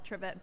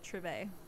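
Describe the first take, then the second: First: It has the American pronunciation. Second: It has the French pronunciation. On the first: "here in America we call it trivet" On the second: "in France they do call it a trivet"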